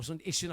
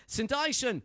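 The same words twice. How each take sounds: First: Saint Ishon said as "s'n ISH-on"; corrected name. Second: Saint Ishon said as "Saint EYE-shon"; first try at the name. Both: Real, not acted. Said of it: "I can never get that right".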